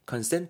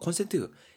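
First: It sounds like the English word consent. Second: It sounds like the Korean loanword kon-sen-teu. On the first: It means to agree to something. The speaker calls it right. "consent 하게 되면 이건 동의하다라는 느낌" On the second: It names an electrical wall outlet. The speaker calls it wrong. "그거 그 베르박에 꽂는 거 consent 이게 아니고요"

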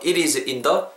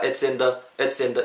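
First: It and is are said as separate words. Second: It and is are joined into its. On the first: "It is in the가" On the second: "it's in the 이렇게 붙어버린다는 거"

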